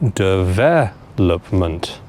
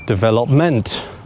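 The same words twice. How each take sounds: First: The stress is on the second syllable. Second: The stress is on the fourth syllable. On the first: The speaker calls it right. "the stress on this word needs to go on the second syllable" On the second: The speaker calls it wrong. "put it on the fourth syllable"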